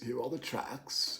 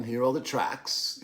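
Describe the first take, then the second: First: Softer repeat under the breath; much softer voice; hushed echo. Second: Said in the usual way. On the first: Real, not acted. Hushed echo of own words.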